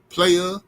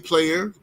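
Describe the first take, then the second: First: The final r sound is dropped. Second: The final r sound is pronounced. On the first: "brothers in the South say" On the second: "They don't say"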